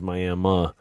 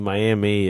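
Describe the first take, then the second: First: Miami is said in an old local accent. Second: Miami is said in an ordinary general accent. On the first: The speaker calls it right. "it was Miami" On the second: The speaker calls it wrong. "You didn't say Miami"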